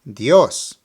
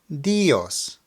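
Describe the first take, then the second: First: The emphasis falls on the O sound. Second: The emphasis falls on the I sound. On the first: The speaker calls it right. "Now the correct way" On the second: The speaker calls it wrong. "let me first mispronounce it and put the emphasis on the I"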